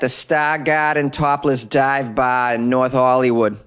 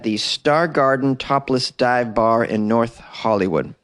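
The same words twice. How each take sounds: First: It is said in a Boston accent. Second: It is said in the speaker's plain accent.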